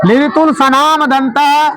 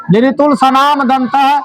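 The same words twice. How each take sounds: First: Slow recitation. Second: Said in the usual way. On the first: Shown as a demonstration. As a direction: slowly say "लिरितुल Sanam दंतः", one syllable at a time. (धीरे-धीरे पढ़कर सुनाना) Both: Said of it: "क्या पढ़ेंगे?".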